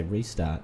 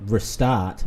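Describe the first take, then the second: First: Said in the usual way. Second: Restart, first syllable weakened to ruh; wrong pronunciation. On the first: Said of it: "You'd say restart". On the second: Shown as a demonstration. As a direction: restart with a short, reduced first vowel. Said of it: "that's not how you say it".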